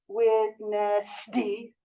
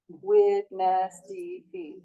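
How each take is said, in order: First: The s between the words is long and hissing. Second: The s between the words is short and small. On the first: The speaker calls it wrong. "if you go witness D, then it's going to take up time and we're going to get snakes" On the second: The speaker calls it right. "now make this as small as you can"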